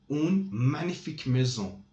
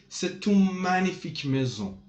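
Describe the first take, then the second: First: Said in the usual way. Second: "magnifique" pushed out higher and louder; emphatic adjective. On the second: Shown as a demonstration. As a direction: lean on "magnifique" to stress the house. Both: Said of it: "We are emphasizing on the noun".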